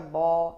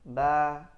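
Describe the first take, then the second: First: The sound is heavy, with a raised tongue. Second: The sound is light, with a lowered tongue. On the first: The speaker calls it wrong. "nah kita baca bo" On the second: The speaker calls it right. "istifal, berarti turunkan habis"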